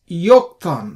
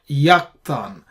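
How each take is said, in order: First: The first vowel is an o sound. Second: The first vowel is an a sound. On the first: The speaker calls it right. "we pronounce this as Yoktan" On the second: The speaker calls it wrong. "not Yaktan"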